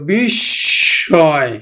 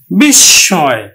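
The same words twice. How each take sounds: First: বিস্ময় drawn out very slowly as "bishshoy"; বিস্ময় said slowly with a doubled s; slow pronunciation demo. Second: বিস্ময় said firmly as "bishshoy"; বিস্ময় louder, doubled s; pronunciation demo. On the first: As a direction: stretch বিস্ময় with a doubled s, nasal end. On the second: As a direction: say বিস্ময় at normal speed with a doubled s. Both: Shown as a demonstration. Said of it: "দুইবার উচ্চারিত হবে".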